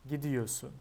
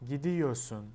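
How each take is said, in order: The two takes are said the same way.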